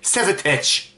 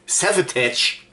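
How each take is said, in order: First: The name is read with German spelling sounds. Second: The name is read with English sounds. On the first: The speaker calls it wrong. "Damals war ich noch dumm" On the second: The speaker calls it right. "Man muss ja alles Englisch aussprechen"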